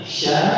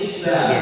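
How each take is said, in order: First: The syllable starts with a hushing sh sound. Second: The syllable starts with a plain s sound. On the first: The speaker calls it right. "Jadi sikit anginnya. Jadi sha" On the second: The speaker calls it wrong. "Kalau ikut nanti jadi sa"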